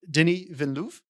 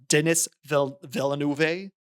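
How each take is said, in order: First: The name is said with a French-style pronunciation. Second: The name is said as spelled, English-style. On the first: The speaker calls it right. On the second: The speaker calls it wrong.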